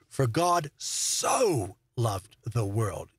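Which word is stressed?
so. The stress is on the word so.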